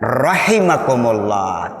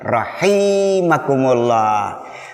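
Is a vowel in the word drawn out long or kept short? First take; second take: short; long. First: Every vowel in the word is kept short. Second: One vowel in the word is drawn out long. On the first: The speaker calls it right. "Betulnya rahimakumullah, tidak pakai mad" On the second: The speaker calls it wrong. "jadi salah kalau melafazkan"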